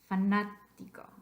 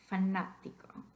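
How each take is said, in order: First: The stress is on the second syllable. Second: The same.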